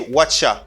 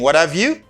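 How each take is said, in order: First: The phrase is squeezed into two short syllables. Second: The phrase is said fully, every word distinct. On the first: "They say" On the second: "instead of saying"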